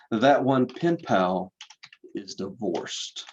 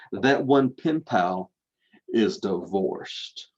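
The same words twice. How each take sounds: First: Said in the usual way. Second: Slow, heavy pause before divorced; stress on divorced. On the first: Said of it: "Let me say that again". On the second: Shown as a demonstration. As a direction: drag out divorced like a scandal. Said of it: "in that scary word voice".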